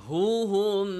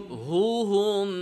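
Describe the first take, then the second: The two takes are said the same way.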